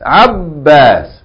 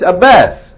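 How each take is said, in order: First: The b is doubled and the vowel long. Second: The b is single, English style. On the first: The speaker calls it right. "with shadda on the ba and a long vowel" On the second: The speaker calls it wrong. "We say in English"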